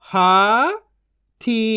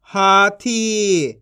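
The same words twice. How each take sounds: First: हाथी split into हा, pause, थी; syllable by syllable. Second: हाथी as one joined word; long हाथी, falling at the end; blended reading. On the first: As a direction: sound out हाथी in two syllables. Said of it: "एक एक अक्षर का उच्चारण करके". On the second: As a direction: join हा and थी. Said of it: "इनको आपस मिला के पढ़". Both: Shown as a demonstration.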